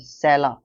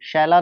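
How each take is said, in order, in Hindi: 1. यह शब्द 's' ध्वनि से शुरू होता है। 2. यह शब्द 'sh' ध्वनि से शुरू होता है। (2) "शैला नहीं"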